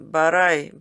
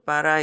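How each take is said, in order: First: The t is a crisp, separate stop. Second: The t is a soft flap linking the words. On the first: "but I를 하지 않고" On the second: "but I 이렇게 해요"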